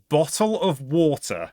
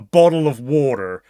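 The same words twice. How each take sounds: First: The T is pronounced as a clear T sound. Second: The T is a soft flap like D. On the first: The speaker calls it right. "In proper English, this is a bottle of water" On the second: The speaker calls it wrong. "But Americans call it a bottle of water"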